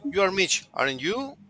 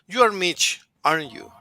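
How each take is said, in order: First: The voice rises on the tag at the end. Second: The voice falls on the tag at the end. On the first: The speaker is not sure and is really asking. "rising intonation" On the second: The speaker is sure and is just confirming. "If I go with l- following intonation, I'm just confirming"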